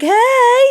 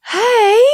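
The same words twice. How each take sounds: First: Much higher and louder, thrilled greeting; excited hey. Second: High, loud, over-familiar greeting; familiar hey. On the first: She greets the famous director back, thrilled. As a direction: beam back at him, starstruck. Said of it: "So I was like". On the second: Famous director spots her across the room, calls out familiarly. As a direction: call out like she's an old friend. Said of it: "in this really familiar way". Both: Retold or imitated.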